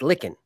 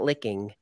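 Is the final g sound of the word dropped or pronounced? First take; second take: dropped; pronounced. First: The ending is said without the final g sound. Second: The ending is said with a full final g sound. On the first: The speaker calls it right. "with just one G. It's licking" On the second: The speaker calls it wrong. "It's not licking"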